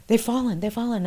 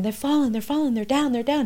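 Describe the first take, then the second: First: Urgent cry. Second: Much higher, urgent retold scream; reliving a panicked scream down the phone. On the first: Retold or imitated. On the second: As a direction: cry it out in disbelief. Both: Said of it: "I'm screaming".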